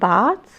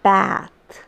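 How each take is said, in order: First: It is said with a British pronunciation. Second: It is said with an American pronunciation. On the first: "British pronounce it as bath" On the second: "the Americans bath"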